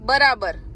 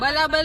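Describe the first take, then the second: First: The word is said with a clear R sound. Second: The word is said with L sounds instead of R. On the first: The speaker calls it right. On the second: The speaker calls it wrong. "બલાબલ નહીં"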